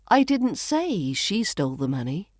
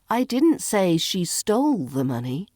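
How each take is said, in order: First: The word say carries the main stress. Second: The word stole carries the main stress. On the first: It was implied rather than said. "Maybe I implied it rather than saying it" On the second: She may have borrowed it instead. "Maybe she borrowed it"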